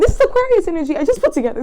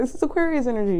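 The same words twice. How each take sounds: First: Loud, high burst on Aquarius; excited realisation. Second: Said in the usual way. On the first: Real, not acted. Tarot reader realising the card meaning, loud and excited. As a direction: blurt it out as it clicks.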